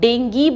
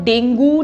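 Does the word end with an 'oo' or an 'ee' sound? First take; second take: ee; oo. First: The word ends with an 'ee' sound. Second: The word ends with an 'oo' sound. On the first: The speaker calls it right. "डेंगी बोलना है" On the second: The speaker calls it wrong. "अब से इस word को डेंगू नहीं बोलना"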